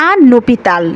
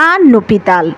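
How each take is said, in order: No difference in how they are said.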